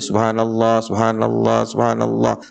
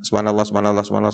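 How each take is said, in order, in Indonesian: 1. Frasa itu dibaca pelan dan hati-hati. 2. Frasa itu dibaca cepat dan tergesa-gesa. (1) "mereka baca dengan pelan-pelan"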